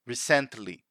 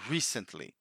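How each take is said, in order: First: The stress falls on the second syllable. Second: The stress falls on the first syllable. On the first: The speaker calls it wrong. "they put the emphasis in the wrong syllable. They say something like recently" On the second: The speaker calls it right. "So the emphasis is in the first syllable"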